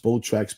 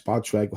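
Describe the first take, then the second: First: "Spotrac" with first vowel as in "boat"; long O pronunciation. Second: "Spotrac" with first vowel as in "pot"; short O pronunciation. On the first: Host unsure of a website's name, "Spotrac" said as SPOH-track. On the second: Host trying the other version, "Spotrac" said as SPOT-track. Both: Shown as a demonstration. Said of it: "however the hell you pronounce".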